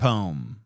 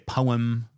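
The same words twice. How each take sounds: First: The word is said with one syllable. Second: The word is said with two syllables. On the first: The speaker calls it right. "I say crayon and poem" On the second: The speaker calls it wrong. "I don't say poem"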